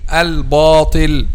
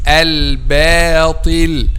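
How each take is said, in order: First: The b sound is heavy and thick. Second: The b sound is light and thin. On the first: The speaker calls it wrong. "some people saying al-batil ... and this is wrong" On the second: The speaker calls it right. "It's al-batil"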